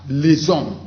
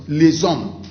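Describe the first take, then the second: Both takes have the same delivery.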